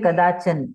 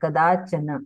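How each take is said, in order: First: The word is clipped, its final vowel shortened or dropped. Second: The word is said in full, every vowel pronounced. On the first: This is how it is said in Hindi. "Hindi में हम बोलेंगे कदाचन" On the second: This is how it is said in Sanskrit. "पूरा उच्चारण होता है कदाचन"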